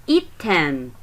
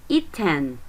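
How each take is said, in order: No difference in how they are said.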